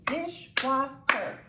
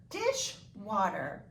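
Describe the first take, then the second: First: "dishwater" in three slow, separate beats; syllable by syllable. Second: "dishwater" slowly, parted as dish and water; two separate words. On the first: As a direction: count out "dishwater" as dish-wa-ter. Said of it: "how many syllables". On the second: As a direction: leave a gap between "dish" and "water". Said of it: "Yes, it is two words". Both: Shown as a demonstration.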